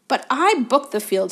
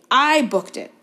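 First: High, loud furious insistence; spitting rage. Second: "I" punched loud and high; stress on I. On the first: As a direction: spit the words in rage. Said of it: "positively spitting with rage". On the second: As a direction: hit the word "I" hard in rage. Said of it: "spitting with rage". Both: A narrator's reading.

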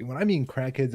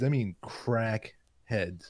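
First: Said in the usual way. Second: Crackheads dragged out slowly, lower in pitch; emphatic CRACKHEADS. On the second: Shown as a demonstration. Stressing to friends how bad they were, slow emphatic "crackheads". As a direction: draw out each half of "crackheads".

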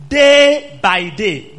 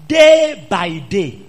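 First: Day by day, loud and very slow; day by day drawn out and loud; stretched emphasis. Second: Day by day, loud and very slow; stretched emphasis. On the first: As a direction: lean on every word. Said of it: "Do you know how many days". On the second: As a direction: drag each word out. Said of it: "Do you know how many days?". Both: Shown as a demonstration.

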